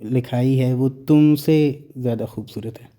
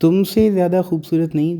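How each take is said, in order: First: Said in the usual way. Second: तुमसे pitched up and stressed in the correction; तुमसे raised and hit hard, then नहीं; emphatic correction. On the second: Shown as a demonstration. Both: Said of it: "इस sentence का मतलब".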